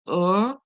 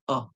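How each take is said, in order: First: The vowel is r-colored, with the r pronounced. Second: The vowel is a short schwa without r. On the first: "if you are using American English, that's when you'll hear er as in the roll for it" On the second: "if you're using the British English, you'll hear the schwa sound"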